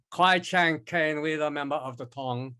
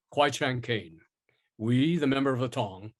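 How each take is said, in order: First: Stereotyped Asian accent. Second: "Kwai Chang Caine" in measured, trained stage diction; standard stage diction. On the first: Actor demonstrating the accent the director expected, stereotyped Asian accent. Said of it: "instead of going". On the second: Actor showing the director an alternative, "Kwai Chang Caine" in standard stage diction. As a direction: enunciate "member of the Tong" like a classically trained stage actor. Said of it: "standard stage diction I learned at Northwestern". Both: Shown as a demonstration.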